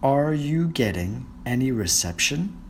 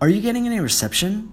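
First: It is said slowly. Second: It is said at normal speed.

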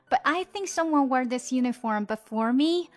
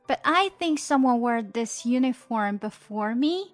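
First: The sentence is read at a quicker pace. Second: The sentence is read at a moderate pace. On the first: "再加快一点点" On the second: "我们把整句读一遍"

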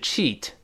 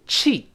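First: Said slowly with the final t audibly released. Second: Said with the final t held and unheard. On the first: "读慢了是cheat" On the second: "单词末尾t 失去爆破，舌尖顶住"

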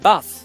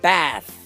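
First: It is said with a British accent. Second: It is said with an American accent. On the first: "英国人呢会说bath" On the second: "美国人会说bath"

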